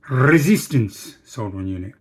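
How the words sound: It is said in an imitated foreign accent. "What would he say? He'd go"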